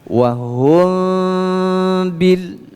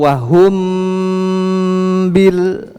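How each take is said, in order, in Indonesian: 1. Bunyi m-nya samar, bibir tidak tertutup rapat. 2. Bunyi m-nya jelas, bibir tertutup rapat. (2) "itu berarti izhar"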